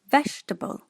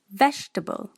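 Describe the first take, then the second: The two takes are said the same way.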